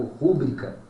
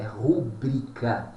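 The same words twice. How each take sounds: First: Rúbrica with stress on the first syllable RÚ; wrong pronunciation. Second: Rubrica with stress on BRI, paroxytone; correct pronunciation. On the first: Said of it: "E não o que você ouve aí direto como rúbrica". (rúbrica errado, tônica em RÚ) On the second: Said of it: "a pronúncia correta desta palavra é rubrica". (rubrica com tônica em BRI) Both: Shown as a demonstration.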